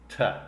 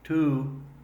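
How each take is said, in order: First: The word has a short relaxed schwa vowel. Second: The word has a full long oo vowel. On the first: "That vowel, uh, is called the schwa sound" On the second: "its long U sound"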